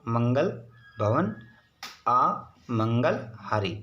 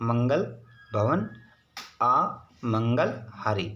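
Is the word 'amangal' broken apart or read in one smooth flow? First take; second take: broken; broken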